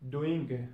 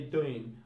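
First: "doing" with the G audible at the end; G sounded. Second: "doing" said as "doin'"; G dropped. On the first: Teacher giving the normal English form, "doing" with its G. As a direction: finish "doing" on a clear ng-g. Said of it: "in normal English". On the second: Teacher showing learners Cockney British, "doing" without G. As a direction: end "doing" on a plain N. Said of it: "in Cockney British say". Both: Shown as a demonstration.

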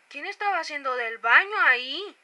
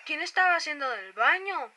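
First: Louder, slow indignant demand; louder mock accusation. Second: Loud slow accusing question; mock accusation. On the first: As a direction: call out the culprit loudly. Repeated louder, slower. (acusación indignada en voz alta) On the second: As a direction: demand who did it, drawn out. (acusación burlona) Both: Real, not acted.

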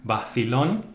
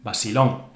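First: Bacilón with a th sound for c; Bacilón said bathilón; theta c. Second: Basilón with a plain s; Basilón, s in place of th; s sound. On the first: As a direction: lisp the c in Bacilón. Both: Shown as a demonstration. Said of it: "ceseo and not ceceo".

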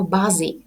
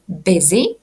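First: Busy as BAH-zy, the typical mistake; wrong pronunciation. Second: Busy as BIZ-ee with a short i; correct pronunciation. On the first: Teacher mimics students mispronouncing busy. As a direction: imitate the learners' error in busy. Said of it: "Це абсолютно неправильно". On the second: Teacher demonstrates the correct busy. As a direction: model the proper busy. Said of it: "Вимовляємо ми busy". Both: Shown as a demonstration.

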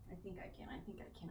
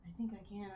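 First: Soft, low murmur of encouragement; hushed self pep talk. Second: Said in the usual way. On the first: Real, not acted. Streamer coaching herself before heavy set, hushed murmur. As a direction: quietly psych yourself up before the lift. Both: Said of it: "can I do it?".

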